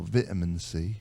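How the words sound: Vitamin is said with a British pronunciation.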